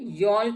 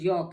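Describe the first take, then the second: First: An L sound is heard before the K. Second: No L sound is heard before the K. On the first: The speaker calls it wrong. "यॉल्क नहीं है" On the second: The speaker calls it right. "ये यॉक है"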